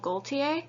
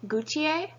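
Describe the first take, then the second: First: The L sound is pronounced in the name. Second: The L sound is left out of the name. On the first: This is how the designer says his own name. "he refers to himself with the L" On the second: This is how most French people would say it. "most French people would not pronounce the L"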